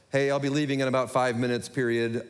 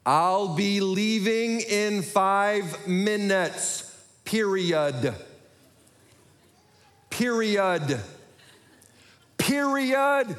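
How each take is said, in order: First: Casually dictating a text, punctuation included; low-key talk-to-text dictation; quick casual dictation. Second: Painfully slow, over-enunciated words; drawn-out high syllables, increasingly insistent; exaggeratedly clear dictation. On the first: Acted. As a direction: run it off in an offhand everyday voice. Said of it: "I speak quickly and sometimes I mumble". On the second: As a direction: dictate as if to a dim machine, rising in frustration. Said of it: "wasn't being clear with what I said".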